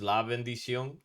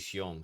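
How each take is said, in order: First: The full phrase is said with every syllable. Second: Only the last syllable of the word is said. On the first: "the word is la bendición" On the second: "the way we say it in Dominican terms"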